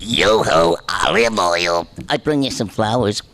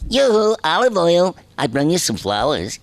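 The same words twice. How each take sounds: First: It sounds like two voices an octave apart. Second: It is said in a high voice.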